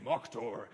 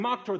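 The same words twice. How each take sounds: First: Low-pitched barkeep's toast; imitated barkeep. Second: High-pitched mock crowd yell; imitated screaming. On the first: Speaker recalling the Viking barkeep's word, low imitated voice. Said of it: "the sound of the barkeep saying". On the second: Speaker recalling everyone in the bar, mock scream. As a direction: raise it as if echoing a whole bar. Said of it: "everyone in that bar screaming".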